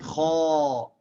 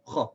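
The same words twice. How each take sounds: First: The vowel is held long. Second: The vowel is kept short. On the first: The speaker calls it wrong. "It's not kha. It's not a long vowel" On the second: The speaker calls it right. "It's still a short vowel"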